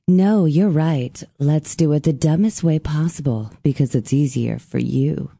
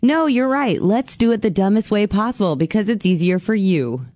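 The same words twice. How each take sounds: First: It is read in a put-on sexy voice. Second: It is read in a plain, ordinary voice.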